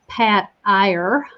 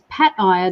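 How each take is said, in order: First: The name is said in an American accent. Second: The name is said in a non-American accent.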